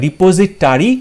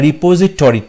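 First: "রিপোজিটরি" said ri-po-zi-TA-ri; "রিপোজিটরি" with A before the last syllable; "-tari" spelling read out. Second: "রিপোজিটরি" said ri-po-zi-TO-ri; "রিপোজিটরি" with O before the last syllable; "-tori" spelling read out. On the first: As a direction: end "রিপোজিটরি" on an open "tari". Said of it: "option A তে যেটা আছে". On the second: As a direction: end "রিপোজিটরি" on a rounded "tori". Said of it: "টি ও, তাই option B". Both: Shown as a demonstration.

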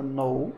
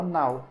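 First: "know" as "noh", the K silent; O sound in know. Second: "now" as "nau", mouth opening wide; AU sound in now. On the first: Teacher showing the verb saber, long-O pronunciation. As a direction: say "know" to rhyme with "go". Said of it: "Aqui você fala know". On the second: Teacher showing the word for agora, open AU pronunciation. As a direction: say "now" to rhyme with "cow". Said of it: "aqui você fala now". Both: Shown as a demonstration.

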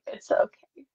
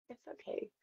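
First: A higher, forced cheerful it's okay; bright okay. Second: A soft unvoiced whispered it's okay. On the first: Retold or imitated. Consoling herself after being cut out, forced cheer. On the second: Consoling herself after being cut out, whispered. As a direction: whisper it to yourself to cope. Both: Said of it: "I'm like".

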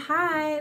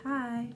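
First: Said in the usual way. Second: A soft, melted little hi; going all soft. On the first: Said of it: "you're like, they're like". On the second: Retold or imitated. Replying to a sweet message, going all soft. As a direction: let the hi go soft and shy, much quieter. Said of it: "you get all soft and stuff".

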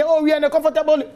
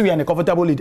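First: Pitched high, mocking the rivals' boast; high mock of a complacent rival; mocking quote. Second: Said in the usual way. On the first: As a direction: sneer it like a smug boaster. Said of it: "obi si deɛ". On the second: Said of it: "Wo si".

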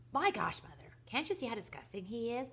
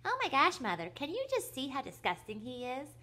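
First: Raised, squeaky mocking voice; high squeaky mimicry. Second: Very high, mocking squeak, loud at the start; high squeaky mimicry. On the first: Brother mimics his sister to mother, high and squeaky. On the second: Brother mimics his sister to mother, shrill squeaky voice. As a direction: push the mimicry right up into a squeak. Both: A narrator's reading. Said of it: "mimicked Philip in a high, squeaky voice".

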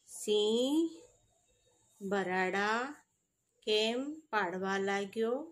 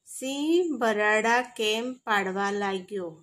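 First: "સિંહ", "બરાડા", "કેમ પાડવા લાગ્યો" split by long pauses, softer; phrase by phrase. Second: Said in the usual way. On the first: Shown as a demonstration. Teacher repeating the question for pupils, phrase by phrase with pauses after "Singh" and "બરાડા".

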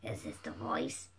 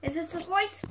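First: Extremely low, quiet test voice; trying a deep voice. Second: Trying a higher voice. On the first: Sonic tests voices for dad, very deep. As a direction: drop right down to your lowest pitch. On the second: Sonic tests voices for dad, higher pitched. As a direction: voice pitched up, rising at the end. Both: Shown as a demonstration. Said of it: "Um, is this the voice?".

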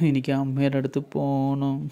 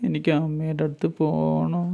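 First: Put-on a touch quieter, mildly tearful child; quiet, lightly tearful child's wish; soft tearful plea. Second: Put-on slow, tearful child's whimper; slow, whimpering plea for mother; crying child voice. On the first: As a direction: plead gently, holding back tears. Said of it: "Devutty കരഞ്ഞുകൊണ്ട് പറഞ്ഞു". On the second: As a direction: draw it out like a crying little girl. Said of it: "Devutty കരഞ്ഞുකൊണ്ട് പറഞ്ഞു". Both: A narrator's reading.

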